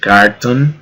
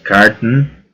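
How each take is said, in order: First: The vowel in the last syllable is clearly heard. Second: The last vowel is dropped; t runs into n. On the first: "En vez de decir carton" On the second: "omitiendo la O y mezclando el sonido de la T con la N"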